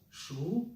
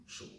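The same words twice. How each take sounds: First: SHU said with the pitch gliding up, higher and louder; rising second tone. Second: SHU held low and level, no rise; low flat third tone. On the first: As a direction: say Shu with a clear upward, questioning rise. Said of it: "if we compare the two". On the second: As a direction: keep shu down at the bottom of the voice. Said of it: "on a low and flat". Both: Shown as a demonstration.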